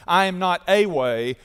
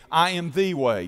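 First: I am not A way, with "a" stressed; stress on the article. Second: I am THE way, with "the" stressed; stress on the article. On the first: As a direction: lean on "a" in "not a way". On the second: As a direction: lean on "the" in "the way". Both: Shown as a demonstration. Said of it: "Definite article".

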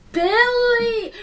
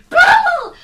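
First: Said in the usual way. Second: High shouted correction; shouting. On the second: Acted. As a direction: yell the name back. Arguing over the name.

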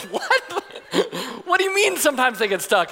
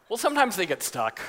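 First: High-pitched, alarmed disbelief; acted outraged astonishment; incredulous dad. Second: Lightly acted offhand explanation; matter-of-fact, as if no concern; casual lifeguard. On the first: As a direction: throw it back in mock panic. Alarmed father challenges the lifeguard. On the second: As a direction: imitate an unbothered lifeguard. Lifeguard shrugs off stuck child.

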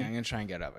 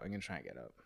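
First: Said in the usual way. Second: Strained, much softer and lower; straining while pushing up from the chair; getting up from chair. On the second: Real, not acted.

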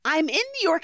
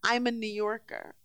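First: "I'm in New York" lifted high; contrastive stress. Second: "I'm a New Yorker" dropped softer; contrasting take. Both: Shown as a demonstration. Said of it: "is different than".

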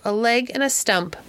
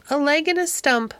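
First: Said in the usual way. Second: Lines piped much higher, like a parrot; chirpy bird voice. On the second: A narrator's reading. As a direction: mimic it like a little bird chirping. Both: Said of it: "Dick imitated him in a few little chirps".

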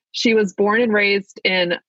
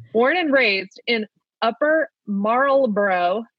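First: Said in the usual way. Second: Careful Maryland accent. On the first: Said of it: "I cannot say this with my Maryland accent". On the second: Shown as a demonstration. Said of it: "Let me give it my best shot".

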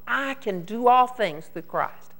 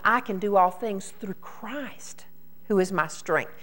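First: All appuyé, phrase lente; stress on all. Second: I chuchoté et montant, who is my strength appuyé; stress on who is my strength. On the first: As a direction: ralentis et pose le mot all. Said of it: "we're putting the emphasis on". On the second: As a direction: souffle le début, puis pèse sur who is my strength. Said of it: "God is wanting us to put the emphasis on". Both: Shown as a demonstration.

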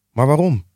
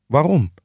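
First: Higher-pitched exclaimed question; exclaiming. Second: Higher-pitched retort of a question; mocking echo. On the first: Nephew protesting his uncle's refusal, exclaiming. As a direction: cry it out in mild dismay. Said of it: "riep Fred uit". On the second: Scrooge echoing his nephew's question, mildly mocking. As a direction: throw the question straight back. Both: A narrator's reading.

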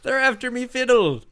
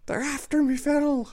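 First: Put-on high old coot voice; old prospector. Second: Put-on very high cranky old coot; old prospector. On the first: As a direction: whine like a grizzled miner. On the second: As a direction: squeak it like a wild old miner. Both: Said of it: "Just an old prospector shaking a stick".

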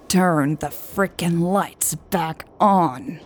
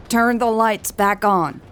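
First: Grind out every word; growled. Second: Higher, sharp angry order; angry demand. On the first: Hobbs repeating his demand to Lucas, growling. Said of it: "Hobbs growled". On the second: Hobbs yelling at the rebels' car, angry. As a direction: bark it at the car. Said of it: "Hobbs's angry voice". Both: Acted.

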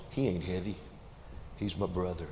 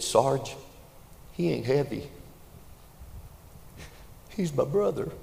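First: Quiet, tender retelling of the line; preacher softly repeats the boy's words; soft tender echo. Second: Put-on high, raised young soldier's cry; young private yells back to his sergeant; boy yelling back. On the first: Acted. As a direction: let it land gently, almost hushed. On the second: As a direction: shout it back, full of conviction. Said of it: "the boy yelled back".

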